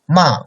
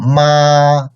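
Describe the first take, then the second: First: The pitch falls downward. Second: The pitch stays high and level. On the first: "fourth tone, like downcoming tone" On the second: "the first tone is very high and flat"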